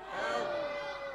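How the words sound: The word is shouted loudly.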